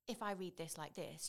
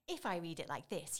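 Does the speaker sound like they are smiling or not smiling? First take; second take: not smiling; smiling. First: The voice sounds flat, without a smile. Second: The voice sounds bright, with a smile. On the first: The speaker calls it wrong. "you know I'm not smiling" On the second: The speaker calls it right. "you know I'm smiling"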